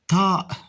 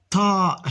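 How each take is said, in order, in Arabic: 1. الحرف الأول ينطق مفخّمًا. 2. الحرف الأول ينطق مفخّمًا.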